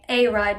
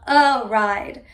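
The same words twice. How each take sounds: First: The article is said as a full 'ay'. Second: The article is said as a reduced 'uh'. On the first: The speaker calls it wrong. "we don't say a ride" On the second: The speaker calls it right. "We say, do you want a ride?"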